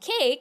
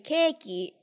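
First: It is said with an English accent. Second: It is said with a Japanese accent.

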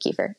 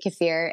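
First: The word is pronounced the American way. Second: The word is pronounced the European way. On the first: "in America, we say kefir" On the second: "In Europe, they say kefir"

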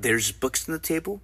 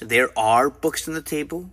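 First: The words 'there are' are contracted to 'there's'. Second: The words 'there are' are said in full. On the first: The speaker is not stressing that books are already there. The speaker calls it wrong. "instead of" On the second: The speaker is stressing that books are already there. The speaker calls it right. "allows you to use the right way of saying it"

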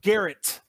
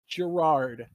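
First: The name is pronounced as Garrett. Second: The name is pronounced as Gerard. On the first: It is the local way of saying the street name. The speaker calls it wrong. "That's Garrett Street" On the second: It is read as the spelling suggests. The speaker calls it right. "How would you say that name?"

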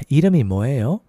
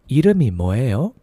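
Both takes have the same delivery.

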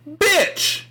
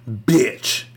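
First: The word is said with strong force. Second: The word is said with little force. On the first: The speaker calls it right. "I had 4 exclamation points" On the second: The speaker calls it wrong. "I didn't say it with enough power"

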